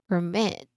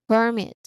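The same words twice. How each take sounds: First: The stress is on the second syllable. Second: The stress is on the first syllable. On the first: "to the second syllable" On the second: "from the first syllable"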